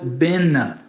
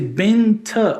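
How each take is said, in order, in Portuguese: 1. O som do t depois do n é apagado. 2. O som do t depois do n é ouvido. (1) "esse benta vira bena" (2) "Quando N vem antes de um T, esse T é neutralizado pelo N"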